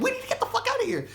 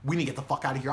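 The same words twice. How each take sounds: First: Very high, fast squeal; hammed-up high-pitched urgency; panicked echo. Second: Said in the usual way. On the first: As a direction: throw it back in a frantic high voice. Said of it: "I'm like". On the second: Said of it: "she's like".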